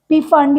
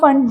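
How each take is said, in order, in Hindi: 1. यह शब्द P की आवाज़ से शुरू होता है। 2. यह शब्द F की आवाज़ से शुरू होता है। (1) "पी वैसे साइलेंट होता है बट पी फंड" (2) "या फंड जो भी आप बोलना चाहते हो"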